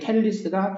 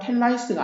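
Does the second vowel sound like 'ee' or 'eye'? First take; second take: ee; eye. First: The second vowel is an 'ee' sound. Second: The second vowel is an 'eye' sound. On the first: The speaker calls it right. "텔리스이기 때문에" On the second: The speaker calls it wrong. "텔라이스가 아니고"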